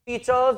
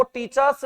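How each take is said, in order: First: "टीचर्स" ending in a buzzing z; z sound ending. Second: "टीचर्स" with a hissed s ending; wrong s sound. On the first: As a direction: say "टीचर्स" as teachez, final z voiced. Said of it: "बल्कि टीचर्स बोलते हैं". ("टीचर्स" के अंत में ज़ की आवाज़) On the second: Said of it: "अब वो टीचर्स नहीं बोलते". ("टीचर्स" के अंत में स की आवाज़) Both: Shown as a demonstration.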